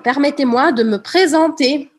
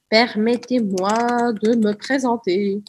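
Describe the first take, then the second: First: It is said in an affected, put-on voice. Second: It is said in the speaker's natural voice.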